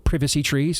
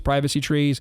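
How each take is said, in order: First: The word 'privacy' has a British pronunciation. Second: The word 'privacy' has an American pronunciation.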